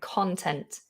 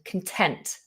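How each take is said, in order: First: The stress is on the first syllable. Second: The stress is on the second syllable. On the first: It means what is inside something. "The stress is at the beginning" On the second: It means feeling happy or satisfied. "The stress is on the end"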